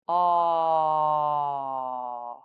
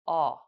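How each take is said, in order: First: The vowel is held for about three seconds. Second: The vowel is said briefly at natural length. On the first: "hold the aw sound for three seconds" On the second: "then say it naturally"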